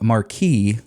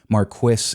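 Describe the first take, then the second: First: The word is said with a French pronunciation. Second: The word is said with a German-like pronunciation. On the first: "is the French pronunciation" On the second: "is closer to German"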